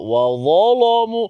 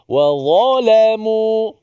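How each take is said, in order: First: The L sound is heavy and thick. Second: The L sound is light and thin. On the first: This is the reading of another tradition. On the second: This is the reading of one tradition.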